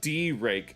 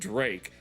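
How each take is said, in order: First: The name is split into two syllables. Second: The name is said as one syllable. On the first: The speaker calls it wrong. "not even D-Rake" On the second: The speaker calls it right.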